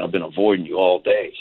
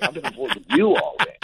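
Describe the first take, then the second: First: Said in the usual way. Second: A high, squeaky mock echo, as if caught out too; echoing squeak. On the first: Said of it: "And he's like". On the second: Echoing his friend's confession in a much higher mock squeak. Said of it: "and I'm like".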